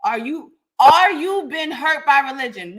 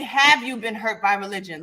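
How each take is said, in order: First: Said in the usual way. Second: "Have you been" said lower, as the proper version; corrected phrasing. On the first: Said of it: "you might wanna rephrase that". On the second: Shown as a demonstration. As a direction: model the correct question pointedly. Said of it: "rephrase that and say".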